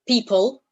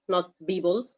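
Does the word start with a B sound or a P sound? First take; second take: P sound; B sound. First: The word begins with a voiceless p sound. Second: The word begins with a voiced b sound. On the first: The speaker calls it right. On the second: The speaker calls it wrong. "not people. ... something is wrong with the B and the P"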